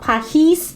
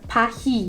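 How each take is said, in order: First: The final s is sounded. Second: The final s is silent. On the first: The speaker calls it wrong. "so not Pahis" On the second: The speaker calls it right. "but Pahi"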